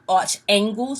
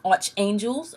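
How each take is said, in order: First: The ending sounds like the word angles. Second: The ending sounds like the word angels.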